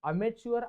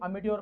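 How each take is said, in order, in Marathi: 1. मधला व्यंजन 'ch' ध्वनी आहे. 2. मधला व्यंजन 't' ध्वनी आहे.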